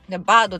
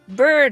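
First: It is said in a Japanese katakana style. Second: It is said with a curled r sound. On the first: "バードでももちろんないし" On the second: "bird でもないし"

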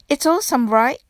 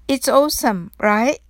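First: The phrase is spoken at a fast pace. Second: The phrase is spoken at a slow pace. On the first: "次に早く言ってみましょう。" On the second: "はじめはゆっくりです。"

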